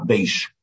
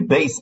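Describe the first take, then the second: First: The word ends in an 'sh' sound. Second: The word ends in a plain 's' sound. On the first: This is how it is said in some parts of Lithuania. "Где-то в Литве говорят не бейс ойлом, а бейшейлом. Не бейс, а бейш" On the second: This is the usual form, not the one used in that part of Lithuania. "Не бейс"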